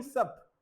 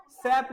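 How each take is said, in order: First: सप with a short central vowel; सप, not opened out to "saep"; corrected vowel demo. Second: सैप with an open "sap" vowel as in cat; सैप, the vowel stretched open; wrong vowel demo. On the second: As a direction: say सैप with a wide "ae" sound. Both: Shown as a demonstration. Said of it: "सैप नहीं".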